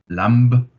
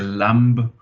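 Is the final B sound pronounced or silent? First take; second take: silent; pronounced. First: The final B sound is silent. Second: The final B sound is pronounced. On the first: The speaker calls it right. "the silent B" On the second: The speaker calls it wrong. "You wouldn't say lamb"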